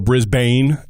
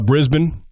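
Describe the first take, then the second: First: It is pronounced the American way, as read. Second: It is pronounced the non-American way.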